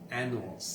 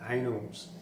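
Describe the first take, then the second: First: The word sounds like 'annals'. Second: The word sounds like 'anals'. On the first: The speaker calls it right. "A double N A L S, annals, like an annual" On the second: The speaker calls it wrong. "I mis- totally mispronounced annals, and I said anals"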